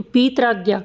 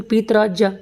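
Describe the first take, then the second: First: पीत्राज्ञा with ज्ञा said "gya"; hard g in the ending of पीत्राज्ञा; first alternative pronunciation. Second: पीत्राज्या ending in "jya"; second alternative pronunciation. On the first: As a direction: say "pee-traa-gya" for पीत्राज्ञा. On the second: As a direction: say "pee-traa-jya" for पीत्राज्या. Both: Shown as a demonstration. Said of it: "या फिर पीत्राज्या".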